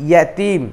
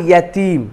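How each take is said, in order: The two takes are said the same way.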